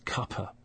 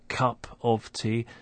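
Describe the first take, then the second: First: It shrinks to two syllables without the last word. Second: All three words are said in full.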